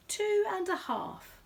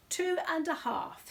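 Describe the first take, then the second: First: High, slow bear voice; Paddington voice. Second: High, slow and firm bear voice; firm Paddington. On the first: Bear answers the quizmaster, high and slow. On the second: Bear insists to the host, high and firm. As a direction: stand by the answer firmly. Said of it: "said Paddington firmly". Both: Acted.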